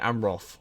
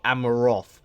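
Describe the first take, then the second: First: No extra vowel is inserted in the middle. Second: An extra vowel is inserted in the middle. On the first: The speaker calls it right. "It should be Amroth" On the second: The speaker calls it wrong. "I say Dol Amaroth"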